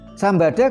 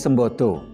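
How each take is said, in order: First: The vowels are pronounced as open a sounds. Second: The vowels are pronounced as o sounds. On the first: It means the element of fire. The speaker calls it right. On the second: It means capable. The speaker calls it wrong. "kalau dibaca O menjadi Sembodo"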